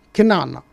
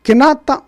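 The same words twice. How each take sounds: First: Kenana, the T softened to an N. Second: Kenata, the T said clearly. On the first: Teaching the northern form, Kenana with N. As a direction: say Kenana, the nasal N in place of T. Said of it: "devenu N, Kenana". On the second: Teaching the southern form, Kenata with T. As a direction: say Kenata with a crisp T sound. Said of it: "entre Kenata et Kenana". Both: Shown as a demonstration.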